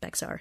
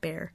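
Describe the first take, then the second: First: It is said as spelled, with an x sound. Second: It sounds like bear, with no x sound. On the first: The speaker calls it wrong. "you're saying it wrong" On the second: The speaker calls it right. "It's Bear"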